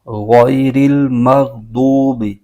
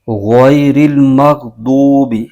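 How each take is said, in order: The two takes are said the same way.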